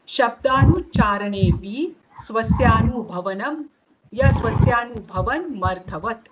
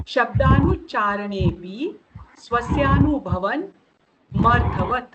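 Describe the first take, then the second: First: Said in the usual way. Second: शब्दानुच्चारणेपि, स्वस्यानुभवन, मर्थवत each said slowly with pauses between; slow word by word. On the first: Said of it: "उसको लेकर ये सूत्र है". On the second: Shown as a demonstration. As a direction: break the sutra into its three words and pause after each. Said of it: "देखो".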